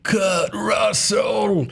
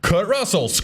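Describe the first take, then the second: First: Slow, high, drawn-out deathbed cry; dramatic dying gasp. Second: Deathbed cry, lighter take. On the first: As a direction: gasp the name out like a dying man. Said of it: "He wasn't on his deathbed going". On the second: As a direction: call the name out once more, lighter. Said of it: "And he didn't go". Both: Pretend.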